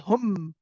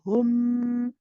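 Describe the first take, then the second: First: The m is pressed hard with the lips. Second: The m is light, with relaxed lips. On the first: The speaker calls it wrong. "We don't say hum, hum. We do not press on the meme" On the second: The speaker calls it right. "Your lips come together very lightly. You don't press your lips together for this"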